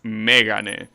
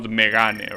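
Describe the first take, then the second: First: The accent falls on the first syllable. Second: The accent is not on the first syllable. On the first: The speaker calls it right. "the accent in the first E" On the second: The speaker calls it wrong. "and not"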